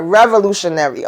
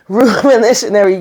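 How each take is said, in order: First: "Revolutionary" said cleanly, every syllable in place; corrected pronunciation. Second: "revolutionary" garbled, syllables slurred with a laugh; stumbled word. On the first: Recapper retrying the word she fumbled, "Revolutionary" pronounced correctly. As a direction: get all of "Revolutionary" out clearly. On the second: Recapper fumbling a hard word, "revolutionary" mangled in the middle. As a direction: trip over the middle of "revolutionary". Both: Real, not acted. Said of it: "having a tr-, a time saying that word".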